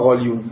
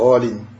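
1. Le mot se termine par un son 'u'. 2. Le mot se termine par un son 'a'. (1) "Il n'y a pas Ra-Lion" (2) "Faut dire Ra-Lin"

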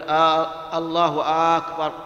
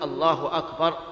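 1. الحركة الأولى من "akbar" تُمَدّ مدًّا طويلًا. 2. لا تُمَدّ أي حركة، والعبارة تُنطق بشكل طبيعي. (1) "يمد الهمزة همزة أكبر فيقول" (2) "لا بد أن يقول الله أكبر"

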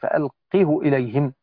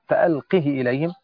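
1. ينتهي الضمير بحركة ضمة طويلة. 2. ينتهي الضمير بحركة كسرة طويلة. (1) "وبضم الهاء وإثبات الواو على الأصل" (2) "بإثبات الياء في اللفظ"

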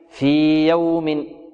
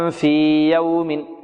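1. تُمَدّ الحركة الطويلة حركتين قبل 'y'. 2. تُمَدّ الحركة الطويلة حركتين قبل 'y'.

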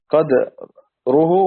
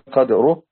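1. الدال متبوعة بحركة قصيرة. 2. لا توجد حركة بعد الدال.

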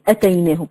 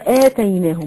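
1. الحركة الأولى قصيرة، مع همزة قطع سريعة. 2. الحركة الأولى ممدودة، بمقدار حركتين. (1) "ما ينفعش تقولي أتيناهم" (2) "إحنا هناخدها النهارده آتيناهم"

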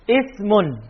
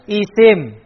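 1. Kata itu berakhiran bunyi -un. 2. Kata itu berakhiran tanpa bunyi -un. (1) "Ismun bacanya" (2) "kalau ngajar biasanya disebut apa?"

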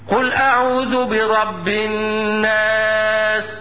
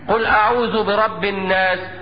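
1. النون المشددة مغنّاة وتُمَدّ حركتين. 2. النون المشددة قصيرة، بلا غنّة ممتدة. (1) "ده النطق الصحيح" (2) "بعض الناس زي اللي بيسمعوا مثلا ويقرأها لي هكذا"

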